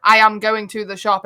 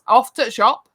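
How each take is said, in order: First: Said in the usual way. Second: Yorkshire clip, "off to the shop" run together; clipped Yorkshire "off to the shop". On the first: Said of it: "we don't say". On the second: Shown as a demonstration. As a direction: drop the words, Yorkshire style.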